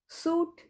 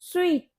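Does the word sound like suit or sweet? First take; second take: suit; sweet. First: The word sounds like suit. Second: The word sounds like sweet. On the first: The speaker calls it wrong. "ये सूट नहीं होता" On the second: The speaker calls it right. "इसकी correct pronunciation होती है स्वीट"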